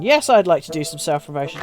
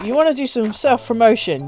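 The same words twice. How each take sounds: First: "Yes" leading a lower-pitched, settled reply; put-on reply, "Yes" firm and the rest low; mock interviewee answer. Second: "wanna" lifted in a playful leading question; put-on question, "wanna" highest; mock interviewer question. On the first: Answers own mock interview question. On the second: Acts both sides of self-interview.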